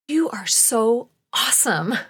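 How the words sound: It sounds warm, loving and adoring.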